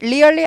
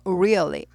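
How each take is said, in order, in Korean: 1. 평범한 R로 시작해요, 둥근 소리 시작은 없어요. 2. 둥근 'u' 같은 R 소리로 시작해요. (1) "아니고" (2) "우, really"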